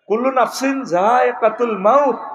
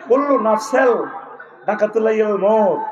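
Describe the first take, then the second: First: The phrase is said with clear, careful sounds. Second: The phrase is said with garbled, distorted sounds. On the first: The speaker calls it right. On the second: The speaker calls it wrong.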